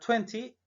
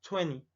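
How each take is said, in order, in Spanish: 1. El sonido T después de la N se pronuncia claramente. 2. El sonido T después de la N se omite. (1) "cuando la T es muy pronunciada, es muy dura" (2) "es muy común que esta T eh, no la pronunciemos"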